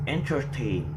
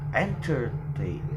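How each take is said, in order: First: The stress is on the last syllable. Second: The stress is on the first syllable. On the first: The speaker calls it right. "the word tain in the last syllable of entertain is heavier" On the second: The speaker calls it wrong. "not entertain"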